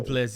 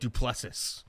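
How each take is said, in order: First: The name is said with a French pronunciation. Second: The name is said flatly, with an English pronunciation. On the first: "if he was en français" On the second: "there's no culture in it"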